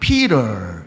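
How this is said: It is said in an American accent.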